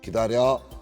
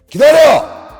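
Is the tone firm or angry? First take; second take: firm; angry. First: It is said firmly and calmly. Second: It is said loudly and angrily.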